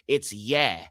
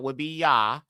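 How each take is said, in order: First: The vowel is an 'eh' sound, as in yes. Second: The vowel is an open 'ah' sound. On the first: The speaker calls it wrong. "it gets that yes sound" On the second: The speaker calls it right. "First two letters, Yod, Ha, would be Yah"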